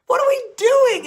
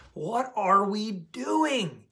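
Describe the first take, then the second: First: Much higher and louder, laughing disbelief; exasperated outburst. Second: Slow, level and pointed; slow rhetorical question. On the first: Exasperated at everyone's bad habits. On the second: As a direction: let each word sink in slowly. Repeats the question slowly. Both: Real, not acted.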